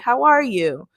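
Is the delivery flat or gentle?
flat. It is said plainly and directly, without softness. The speaker addresses the listener as an equal. "so we'll just say"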